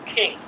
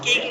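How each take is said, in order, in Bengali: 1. প্রথম k ধ্বনিতে বাতাসের ফোঁস আছে। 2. প্রথম k ধ্বনিতে বাতাসের কোনো ফোঁস নেই। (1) "হবে হচ্ছে কিং" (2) "কিং না হয়ে"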